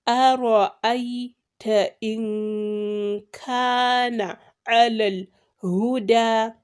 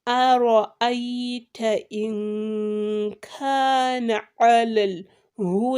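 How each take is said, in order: The two takes are said the same way.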